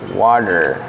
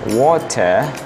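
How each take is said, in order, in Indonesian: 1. R di akhir diucapkan ringan. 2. R di akhir dihilangkan. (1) "di Amerika itu jadi R-nya sedikit" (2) "R-nya hilang"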